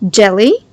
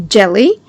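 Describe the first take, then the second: No difference in how they are said.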